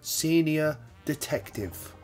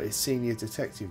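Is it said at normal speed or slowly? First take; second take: slowly; normal. First: It is said slowly and deliberately. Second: It is said at normal speed.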